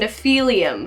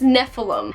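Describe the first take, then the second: First: The word ends with an extra '-ium' sound. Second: The word ends with a short '-im' sound. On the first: It sounds fancier. "to put an extra couple like L's and I's and things in them" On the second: It is probably the proper form. "I think it's Nephilim"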